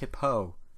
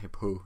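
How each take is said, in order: First: The final O sound gets extra emphasis. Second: The final O sound gets no extra emphasis. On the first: The speaker calls it right. "Just a little more on the O" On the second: The speaker calls it wrong. "Not Hippo. Not whatever I was saying"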